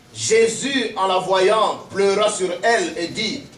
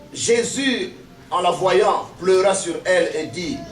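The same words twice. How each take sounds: No difference in how they are said.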